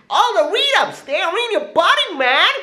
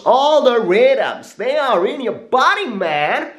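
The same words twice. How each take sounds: First: Very high squeaky put-on voice, laughing. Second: Higher voice. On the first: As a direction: push it up into a squeaky falsetto. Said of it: "repeated higher still". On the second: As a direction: lift it up and stretch it out. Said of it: "repeated higher". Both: Shown as a demonstration.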